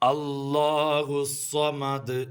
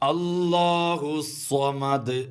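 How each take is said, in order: The two takes are said the same way.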